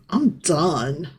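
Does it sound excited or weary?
weary. It sounds weary and fed up.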